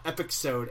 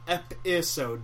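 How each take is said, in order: First: The middle consonant is a ks sound. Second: The middle consonant is a plain s sound. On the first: The speaker calls it wrong. "not epixode" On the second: The speaker calls it right. "Pronounced episode"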